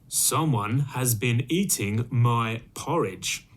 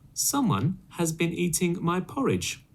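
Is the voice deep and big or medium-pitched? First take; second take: deep; medium. First: It is said in a great big, deep voice. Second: It is said in a middle-sized, medium voice.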